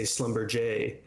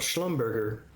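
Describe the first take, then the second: First: The name is said with a French accent. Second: The name is said with an American accent.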